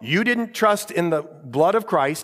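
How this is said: It is said in a mocking, smart-aleck tone. The judge is mocking the person. The speaker calls it wrong.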